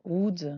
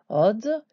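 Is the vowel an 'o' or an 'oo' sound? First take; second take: oo; o. First: The vowel is a closer 'oo' sound. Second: The vowel is a rounded 'o' sound. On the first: The speaker calls it wrong. "ce serait une erreur tellement minime" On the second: The speaker calls it right. "c'est sûr que c'est un O soutenu par le Vav"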